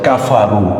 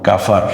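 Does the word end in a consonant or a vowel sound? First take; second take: vowel; consonant. First: The word ends with a final vowel sound. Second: The word ends on a bare consonant sound. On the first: The reading continues without stopping. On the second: The reader stops at this point.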